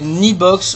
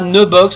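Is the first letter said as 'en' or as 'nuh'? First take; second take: en; nuh. First: The first letter is said as the letter name 'en'. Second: The first letter is said as a short 'nuh'. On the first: The speaker calls it right. "c'est Nibox ou Anybox" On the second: The speaker calls it wrong. "c'est pas ne box"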